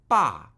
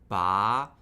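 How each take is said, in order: First: The pitch falls first and then rises. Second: The pitch rises steadily from mid level. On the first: "Third tone, falling and rising" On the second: "Second tone, starting at our normal speaking pitch, steadily rising"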